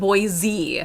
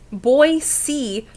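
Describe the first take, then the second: First: The second syllable begins with a z sound. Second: The second syllable begins with an s sound. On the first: The speaker calls it wrong. "not boy Z" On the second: The speaker calls it right. "Coral said it's boy boy C"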